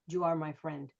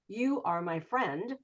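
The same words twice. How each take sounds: First: 'You' begins with a j-like sound. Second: 'You' begins with a plain y sound. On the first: "they will say you" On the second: "if they're just saying you"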